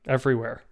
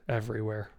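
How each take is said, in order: First: Said in the usual way. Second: Much softer, sighed out on a breath; a quiet, defeated echo; hushed repeat. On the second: Acted. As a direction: let the word sink with a sigh. Word repeated, hangs in air.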